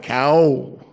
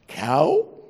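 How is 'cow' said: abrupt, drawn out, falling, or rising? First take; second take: drawn out; rising. First: The word is stretched out long. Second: The pitch rises through the word. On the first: "Or you draw it out" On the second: "you have rising inflection"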